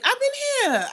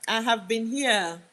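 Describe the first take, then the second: First: Very high, loud exclamation; indignant squeal of a reply; exclaimed protest. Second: Slow, deliberate "have"; firm, drawn-out insistence on "have"; insistent stress on HAVE. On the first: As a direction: protest loudly, pitch shooting right up. Protesting a viewer's where-have-you-been. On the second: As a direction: lean on "have", spacing the words out. Insisting on the same reply. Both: Real, not acted.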